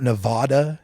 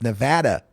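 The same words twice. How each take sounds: First: Nevada with a broad AH in the middle; mispronunciation. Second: Nevada with the VAD rhyming with "dad"; correct local pronunciation. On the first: Host mimicking the commentators' mistake, Nevada mispronounced with AH. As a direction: say Nevada as nuh-VAH-duh. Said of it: "not Nevada. It's Nevada". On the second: Host correcting news people, Nevada said the local way. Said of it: "learn how to pronounce the names". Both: Shown as a demonstration.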